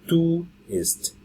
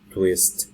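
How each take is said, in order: First: The word is split into two syllables. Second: The word is said as one quick syllable. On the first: The speaker calls it wrong. "Don't say tu ist" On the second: The speaker calls it right. "it's brief"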